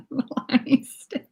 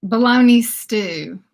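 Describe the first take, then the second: First: Breathy whisper through laughter; laughing. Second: Said in the usual way. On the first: Shown as a demonstration. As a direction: laugh out the name.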